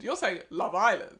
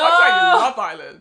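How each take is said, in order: First: The stress is on Island. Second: The stress is on Love.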